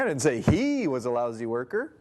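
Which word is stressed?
he. The stress is on the word he.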